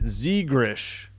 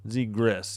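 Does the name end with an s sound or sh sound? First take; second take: sh; s. First: The name ends with an sh sound. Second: The name ends with an s sound. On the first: The speaker calls it wrong. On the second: The speaker calls it right.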